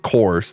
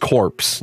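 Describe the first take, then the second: First: The word ends without any 'p' or 's' sound. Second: The word ends with a clear 'ps' sound. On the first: The speaker calls it wrong. "not cores" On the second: The speaker calls it right. "that's corpse"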